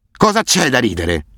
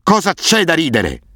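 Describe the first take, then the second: First: Slow, higher menacing roar; a madman roaring over each punch. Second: Much higher, slow, frenzied roar; the roar climbs into a crazed high shriek; furious roar. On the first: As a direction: Asef roaring at his beaten victim, slow and unhinged. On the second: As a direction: scream it out, losing all control. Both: A narrator's reading. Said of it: "ruggiva a ogni colpo".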